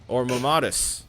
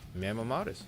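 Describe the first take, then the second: First: The word ends in a short tus sound. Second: The word ends like the word modest. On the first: The speaker calls it right. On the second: The speaker calls it wrong.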